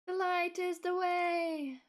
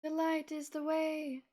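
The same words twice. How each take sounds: First: High, loud and slow oracle voice; grand slow proclamation. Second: Raised, grand mystical voice; dramatic proclamation. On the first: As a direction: intone it like a divine oracle. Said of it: "repeats line slower, bigger". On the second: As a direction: proclaim it like a prophecy. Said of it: "repeats line as performance". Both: Pretend.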